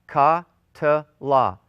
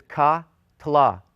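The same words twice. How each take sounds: First: "ka-tla" repeated louder, ka set apart from tla; stressed demo. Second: "ka-tla" split into clear syllables, ka then tla. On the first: Teacher repeats "ka-tla" so students hear the syllables. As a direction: lean on "ka-tla", each part distinct. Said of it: "Three syllables". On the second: Teacher shows students the three-syllable "ka-tla", split clearly. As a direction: say "ka-tla" with a small break after ka. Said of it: "we pronounce this as ka-tla". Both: Shown as a demonstration.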